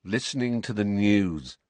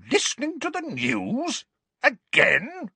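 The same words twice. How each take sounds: First: Resigned. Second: Much higher, shocked repeat; outraged Aunt Petunia. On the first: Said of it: "said Harry in a resigned voice". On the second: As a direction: shriek the echo in outrage. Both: A narrator's reading.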